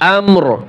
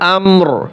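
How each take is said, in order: First: The word ends sharply on a bare 'r'. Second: The same.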